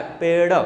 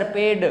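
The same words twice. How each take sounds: First: पेड़ ending in a light "ṛa" flap; flapped पेड़. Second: पेड़ with the stopped D of डमरू; hard-D पेड़. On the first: Teacher models the dotted spelling, flapped पेड़. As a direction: flick the tongue for the end of पेड़. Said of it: "इसका अड़े उच्चारण होता है". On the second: Students' mistaken answer to teacher, पेड़ with hard D. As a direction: end पेड़ on a hard "D", unflapped. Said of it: "ड, डमरू वाला". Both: Shown as a demonstration.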